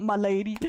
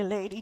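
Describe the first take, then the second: First: "my lady" full and clear; correct version. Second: Nephew's version. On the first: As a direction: say "my lady" properly. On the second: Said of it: "He would say". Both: Retold or imitated.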